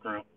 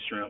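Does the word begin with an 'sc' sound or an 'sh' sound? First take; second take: sc; sh. First: The word begins with an 'sc' sound. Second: The word begins with an 'sh' sound. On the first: The speaker calls it wrong. "not scrimp" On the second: The speaker calls it right. "We say shrimp"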